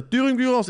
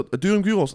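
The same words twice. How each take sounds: First: Called out order. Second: Said in the usual way. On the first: Retold or imitated. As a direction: shout it over the counter to the kitchen. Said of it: "er ruft wieder hinterher".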